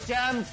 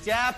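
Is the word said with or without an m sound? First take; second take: with m; without m. First: The word is said with an m sound. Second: The word is said without an m sound. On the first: The speaker calls it right. "चैंप होता है" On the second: The speaker calls it wrong. "चैप नहीं होता"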